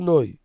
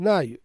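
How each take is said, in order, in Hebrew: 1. התנועה מבוטאת כ-'oi'. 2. התנועה מבוטאת כ-'ai'. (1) "ולא נוי. שאשכנזים זה נוי" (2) "כמו דעת שון רבים, נאי"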